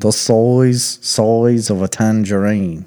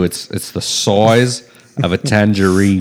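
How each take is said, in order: First: Slow, careful Aussie "size"; trying an Australian accent. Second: Slowed, jokey Aussie vowels on "size"; lightly voiced Aussie tourist; mock Australian accent. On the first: Shown as a demonstration. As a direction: tentatively copy the Aussie line. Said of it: "That's how you do an Australian accent". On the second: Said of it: "You can't go Michael Caine on me".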